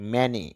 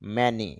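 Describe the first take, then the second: First: The vowels are short 'a' then 'ee'. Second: The same.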